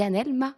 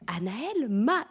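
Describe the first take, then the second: First: Said in the usual way. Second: Drawn-out, exasperated retold question; imitation agacée. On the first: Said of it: "Elle me dit". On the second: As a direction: mimic an officer losing patience, stretching the words. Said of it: "Et elle, elle s'énerve". (imitation agacée d'une officière, en étirant les mots)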